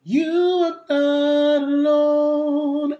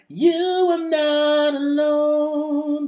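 First: Fuller natural tone; neutral larynx. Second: Thin, pinched manufactured tone; raised larynx. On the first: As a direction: sing it in your talking voice. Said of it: "it sounds a bit fuller". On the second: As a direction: sing with the larynx lifted. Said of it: "This is more manufactured than". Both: Shown as a demonstration.

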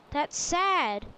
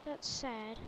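First: Loud, emphatic playful reproach; mock reproach. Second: Low, soft remark; subdued reaction. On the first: Player addressing Mojang about the joke, loud mock reproach. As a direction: throw it loudly at the game makers. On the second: Real, not acted. Player reacting to the game's Australian words, low subdued remark. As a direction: say it low, half to yourself.

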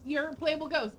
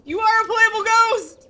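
First: Said in the usual way. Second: "are" punched loud and high; stress on are. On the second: Real, not acted. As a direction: hit "are" hard and loud. Emphatic repeat, louder.

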